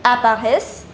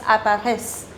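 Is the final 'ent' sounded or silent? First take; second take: silent; silent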